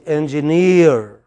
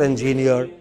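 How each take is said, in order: First: "engineer" as en-ji-NEER, last syllable long and loud; correct final stress. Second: "engineer" run evenly, no weight on the last syllable; wrong stress. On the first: Teacher corrects the students, stressed on last syllable. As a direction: stretch and punch the NEER in "engineer". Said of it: "It is engineer". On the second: Teacher mimics the students' mistake, misplaced stress. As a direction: say "engineer" as en-JI-ni-ar, ending unstressed. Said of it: "it's not engineer". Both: Shown as a demonstration.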